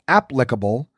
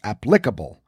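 First: The stress is on the first syllable. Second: The stress is on the second syllable. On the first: The speaker calls it right. "The first syllable is the one that should be emphasized, as in applicable" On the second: The speaker calls it wrong. "rather than the second, which is applicable"

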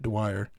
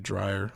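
First: The name begins with a 'dw' sound. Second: The name begins with a 'dr' sound. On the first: The speaker calls it right. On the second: The speaker calls it wrong.

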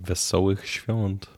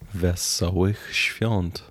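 First: The phrase is said at a normal speaking pace. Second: The phrase is said slowly and deliberately.

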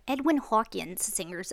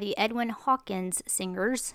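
First: It is said in a New Jersey accent. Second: It is said in the speaker's plain accent.

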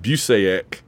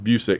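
First: The name does not rhyme with music. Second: The name rhymes with the word music. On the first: The speaker calls it wrong. "I know people that pronounce it Busaic, but that's not how Kurt pronounces it" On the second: The speaker calls it right. "it's pronounced Busick. ... Rhymes with music"

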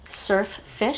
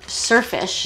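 First: The two words are separate with two f sounds. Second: The two words merge with one f sound. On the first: This is probably the proper form of the name. "Even though they're probably surf fish" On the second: This is the form heard and used in childhood. "I call them surfish"

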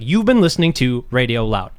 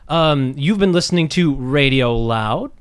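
First: The voice goes down at the end. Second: The voice goes up at the end. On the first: The speaker has finished the sentence. The speaker calls it right. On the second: The speaker is waiting for someone else to come in. The speaker calls it wrong.

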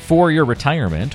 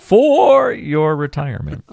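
First: The word 'for' is said plainly and quietly. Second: The word 'for' is shouted loudly like a call. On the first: The speaker calls it wrong. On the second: The speaker calls it right.

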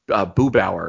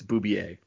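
First: The name is said with an anglicized pronunciation. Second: The name is said with a French pronunciation. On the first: The speaker calls it wrong. "I would say Boobauer is how I pronounce it, which is wrong" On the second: The speaker calls it right. "it's Boubier. It's French"

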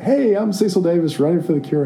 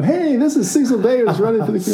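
First: It is said with plain, low energy. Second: It is said with lively, high energy.

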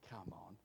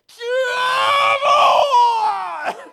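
First: It is said quietly and plainly. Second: It is shouted very loudly.

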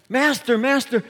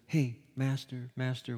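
First: It is said in an urgent, panicked way. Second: It is said in a casual, relaxed way.

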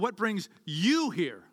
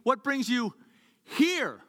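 First: The stress falls on the word you. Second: The stress falls on the word here. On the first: It asks why this particular person came. "Let me change the emphasis of the question" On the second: It asks why they came to this place. "You could be anywhere this morning"

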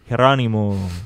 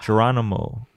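First: The name is said with a Dominican Spanish accent. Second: The name is said with an American English accent.

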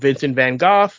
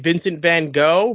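First: The name is said in a non-American pronunciation. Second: The name is said in the American pronunciation. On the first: The speaker calls it right. "you have the other pronunciation of Vincent Van Gogh" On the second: The speaker calls it wrong. "we're American, so we technically say Vincent Van Gogh"

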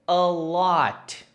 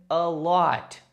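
The two takes are said the same way.

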